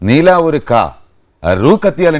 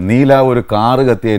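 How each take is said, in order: First: The word for car is split apart, non-natively. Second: The line is said smoothly in natural Malayalam. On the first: An actor who does not know Malayalam said it. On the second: This is how the line should sound.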